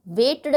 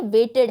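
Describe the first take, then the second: First: वेट्ड squeezed into one syllable; वेट्ड with a clipped d ending; wrong t-d ending. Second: वेटेड said with a clear final id syllable; वेटेड in two syllables; correct id ending. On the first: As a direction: mispronounce वेट्ड without the id. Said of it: "वेट्ड नहीं है ये". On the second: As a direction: say वेटेड as wait-id. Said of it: "वेटेड है". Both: Shown as a demonstration.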